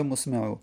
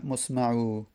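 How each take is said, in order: First: مسمع with a short "e" after the m, musme'u; alternative vowelling. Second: مسمع with an "a" after the m, musma'u; variant vowelling. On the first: Teacher offering the other reading of the verse, مسمع said musme'u. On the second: Teacher reading the verse's first variant, مسمع said musma'u. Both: Shown as a demonstration. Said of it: "یا مسمع".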